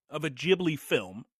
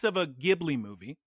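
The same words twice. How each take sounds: First: "Ghibli" with a soft G as in gym; "Ghibli" starting with a j sound. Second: "Ghibli" with a hard G as in give; "Ghibli" starting with a hard g sound. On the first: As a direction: say "Ghibli" as JIB-lee. Repeats name with soft G. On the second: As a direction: say "Ghibli" as GIB-lee. Says the name with hard G. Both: Shown as a demonstration.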